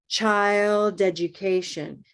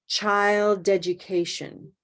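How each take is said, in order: No difference in how they are said.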